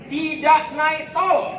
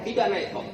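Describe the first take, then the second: First: "Tidak naik tol" high, loud and drawn out; emphatic declaration. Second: Said in the usual way. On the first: Real, not acted. Preacher stresses his hard journey home, loud and emphatic. Stresses no toll road on trip.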